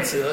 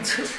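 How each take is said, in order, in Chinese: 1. 这个音节以不送气的 'zh' 音开头。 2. 这个音节以送气的 'ch' 音开头。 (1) "我念折是吧？" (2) "我一直念车。那台湾是念车"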